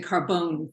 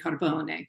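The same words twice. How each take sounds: First: The name is said with an American pronunciation. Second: The name is said with an Italian pronunciation. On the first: "The the American pronunciation is the Carbone family" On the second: "or the Italian Carbone"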